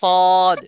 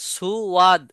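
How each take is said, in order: First: It has no glide and one syllable. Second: It has a 'w' glide and two syllables. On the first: The speaker calls it right. "কিন্তু হবে সদ" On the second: The speaker calls it wrong. "সুওয়াদ হয়ে যাচ্ছে"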